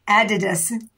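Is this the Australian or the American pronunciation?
Australian. It is said the Australian way. "we say Adidas"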